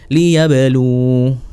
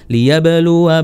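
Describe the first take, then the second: First: The word ends on a long u sound. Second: The word ends with a short added wa. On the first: The reading stops at this word. "waqaf berhenti, ... sama kayak penerapan liyarbu" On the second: The reading continues into the next word. "Kalau wasal"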